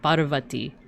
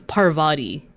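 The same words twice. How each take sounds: First: The R is a Hindi-style R sound. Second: The R is an English-style R sound. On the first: The speaker calls it right. "There's like a certain like R sound" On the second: The speaker calls it wrong. "as opposed to"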